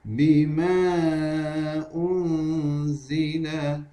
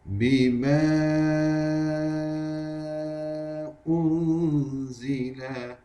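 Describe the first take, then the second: First: The vowel is held for two counts. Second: The vowel is held for five counts. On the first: "Terusnya kita baca dengan dua harakat" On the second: "Kita baca dengan lima harakat"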